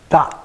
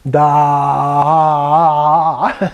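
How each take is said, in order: First: The vowel is cut short. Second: The vowel is held long. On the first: The speaker calls it right. "It's a short ah" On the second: The speaker calls it wrong. "it's not da"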